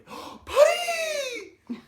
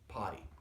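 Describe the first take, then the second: First: The word is said loudly and excitedly. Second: The word is said in a calm, normal tone. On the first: The speaker calls it wrong. "they say it too excitedly" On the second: The speaker calls it right. "Just say it in a normal tone of voice"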